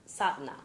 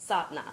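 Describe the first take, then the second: The two takes are said the same way.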